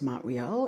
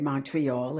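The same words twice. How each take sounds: First: It is pronounced the Quebec French way. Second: It is pronounced the English way. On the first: The speaker calls it right. "which is how we pronounce it for those of us here in Quebec" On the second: The speaker calls it wrong. "you say Montreal"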